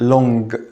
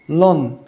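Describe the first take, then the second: First: The word ends with an audible hard g. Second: The word ends with a short plain n. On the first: "ما نقولش long" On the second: "وفي نفس الوقت ما نقولش long"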